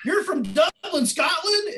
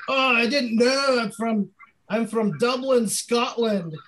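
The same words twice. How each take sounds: First: Much higher, amazed dude voice; impressed frat bro. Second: A deliberately bad, high Scottish accent, slowed down; terrible fake Scottish accent. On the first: Retold or imitated. Frat guy at the door, amazed dude voice. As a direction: echo it back like a stoked frat guy. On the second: College guy at the frat door, bad fake Scottish accent. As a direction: fake a Scottish accent badly to get into the party. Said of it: "I did a terrible accent all night".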